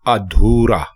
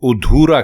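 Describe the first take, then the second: First: The word begins with an a sound. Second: The word begins with a u sound. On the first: The speaker calls it right. "दुरुस्त लफ्ज अधूरा" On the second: The speaker calls it wrong. "लोग गलत बोलते हैं और उधूरा कहते हैं"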